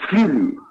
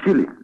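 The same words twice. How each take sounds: First: The opening hushing sound is long and drawn out. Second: The opening hushing sound is short and dry. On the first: The speaker calls it wrong. "Evite a distensão das junções consonantais chiadas. Não diga" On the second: The speaker calls it right. "Pronuncie secamente"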